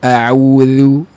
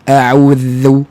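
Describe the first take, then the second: First: The dh sound flows lightly and easily. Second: The dh sound is pressed hard and strained. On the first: The speaker calls it right. "ringan je" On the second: The speaker calls it wrong. "tekanan kuat pada makhraj itu yang tak tepat"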